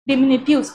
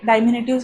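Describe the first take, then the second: First: The first syllable is a short 'dih' sound. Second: The first syllable is a long 'dye' sound. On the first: The speaker calls it right. "असा हा शब्द आहे" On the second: The speaker calls it wrong. "हा शब्द नाही आहे"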